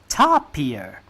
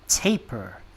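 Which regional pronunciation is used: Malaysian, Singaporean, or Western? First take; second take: Malaysian; Western. First: It is said with a Malaysian pronunciation. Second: It is said with a Western pronunciation. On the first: "in Malaysia, almost everybody refers to it as a tapir" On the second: "in the West they call it taper"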